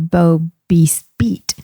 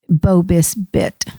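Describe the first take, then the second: First: The last vowel is a long ee sound. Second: The last vowel is a short i sound. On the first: "we say the I sounds like E" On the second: "we pronounce it sometimes Bobis bit because we're going fast"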